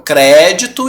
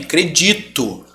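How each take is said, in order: First: "crédito" stressed on CRÉ; stress on first syllable. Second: Slow "credito" stressed on DI; "credito" slowly, weight on DI; stress on middle syllable. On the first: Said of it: "existe como proparoxítona". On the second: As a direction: draw out "credito" as cre-DI-to. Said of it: "paroxítona também". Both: Shown as a demonstration.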